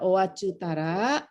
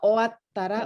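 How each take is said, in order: First: A full 'tsu' syllable is pronounced in the middle. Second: A short stop is held with no 'tsu' sound. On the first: The speaker calls it wrong. "bukan owachutara" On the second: The speaker calls it right. "cu-nya nggak dibaca ya"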